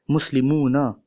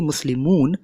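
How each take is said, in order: First: The word ends with a final short vowel. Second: The word ends on n without a final vowel. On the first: This is the actual full form of the word. The speaker calls it right. "it's actually Muslimuna" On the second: This is the commonly known form. The speaker calls it wrong. "it isn't actually Muslimun"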